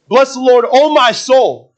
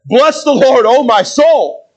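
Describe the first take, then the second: First: "Bless the Lord, O my soul" raised high, with a drawn-out "O my soul"; emphatic declaration. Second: "Bless the Lord, O my soul" punched high and loud, "O my soul" stretched out; really mean every word of "Bless the Lord, O my soul"; heightened emphasis. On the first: Preacher quoting David's first "Bless the Lord, O my soul", emphatic. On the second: Preacher quoting David's repeat of "Bless the Lord, O my soul", heavily emphatic. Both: Shown as a demonstration. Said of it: "put a little more emphasis on it".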